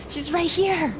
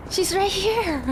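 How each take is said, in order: Both takes have the same delivery.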